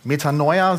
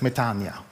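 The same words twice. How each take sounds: First: The word is said the customary German way. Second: The word is said the Greek way. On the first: This is how the congregation usually says it. The speaker calls it wrong. "so sprechen wir es immer aus" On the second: This is how Greek speakers say it. The speaker calls it right. "aber es heißt Metanoia"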